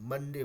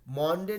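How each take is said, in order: First: The first vowel is a short 'uh' sound. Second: The first vowel is an open 'o' sound. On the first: The speaker calls it right. "मंडे बुलाते हैं" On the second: The speaker calls it wrong. "मॉन्डे नहीं बुलाते हैं"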